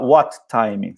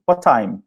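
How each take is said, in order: First: "what time" with both T sounds said apart; separate T's. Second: "What time?" with one T, the final t of what dropped into time; linked what time. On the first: Teacher showing the wrong way to students, both T's sounded. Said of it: "Não precisa falar". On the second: Teacher showing "What time?" to students with one T. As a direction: say "What time?" as wat-ime, a single T. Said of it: "fala um T só, o segundo". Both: Shown as a demonstration.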